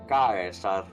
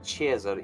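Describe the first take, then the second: First: The word begins with a hard k sound. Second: The word begins with a soft s sound. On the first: This is the original classical pronunciation. The speaker calls it right. "where you get the word Kaiser" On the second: This is the later church pronunciation. The speaker calls it wrong. "he wasn't Caesar"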